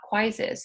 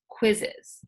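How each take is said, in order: First: The first vowel is a long 'eye' sound. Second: The first vowel is a short 'ih' sound. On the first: The speaker calls it wrong. "so that it's not quizzes" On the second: The speaker calls it right. "so that it's quizzes"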